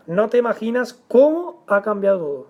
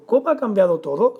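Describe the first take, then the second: First: "cómo ha cambiado todo" stated, stress on "cómo", falling at the end; indirect question. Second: "Cómo ha cambiado todo" rising at the end; direct question. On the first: Teacher shows an indirect question to students, stated. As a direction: punch "cómo", then let "todo" fall. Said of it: "una pregunta indirecta". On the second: Teacher shows what the question would be, questioning. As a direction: ask it outright, lifting "todo". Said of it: "Será la pregunta". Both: Shown as a demonstration.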